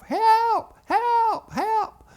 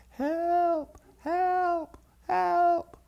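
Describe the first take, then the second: First: Very high, loud acted screams; screaming heads off. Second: High, held-back cries from afar; tiny far-off calls for help; little distant voices. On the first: Two little boys locked in the well house, screaming. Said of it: "We began to scream our heads off". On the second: Retold or imitated. Daddy hears the boys' faint cries across the yards, distant. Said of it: "but then he heard it again".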